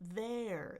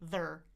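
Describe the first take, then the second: First: The vowel is a full, wide diphthong. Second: The vowel is reduced to a quick schwa. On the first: "Eh, uh, eh, uh" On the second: "But I could also reduce it to be their"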